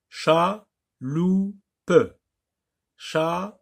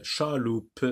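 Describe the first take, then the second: First: "Chaloupe" in three beats, cha, lou, pe; higher teaching voice, "Chaloupe" pulled apart with final e sounded; split into syllables. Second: Said in the usual way. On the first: Shown as a demonstration. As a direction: pause after each syllable of "Chaloupe". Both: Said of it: "des mots en syllabes".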